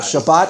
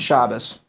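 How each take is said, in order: First: The word ends with a T sound. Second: The word ends with an S sound. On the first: This is the modern Israeli pronunciation.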